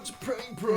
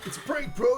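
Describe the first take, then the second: First: It is said in a calm, normal voice. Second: It is said in an agitated, uncalm voice. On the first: The speaker calls it right. "he says it in like a calm voice" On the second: The speaker calls it wrong. "it's not quite like"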